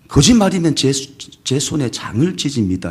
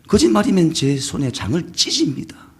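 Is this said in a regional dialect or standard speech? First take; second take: standard; dialect. First: It is said in a standard, neutral accent. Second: It is said in a strong regional dialect. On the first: The speaker hides where he comes from. "해야 하는데" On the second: The speaker gives away his home region. "그런 식으로 한 거죠"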